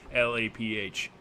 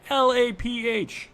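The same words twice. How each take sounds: First: Said in the usual way. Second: High, slow spelled-out letters; high drawn-out spelling. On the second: Shown as a demonstration. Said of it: "We've said that too many times".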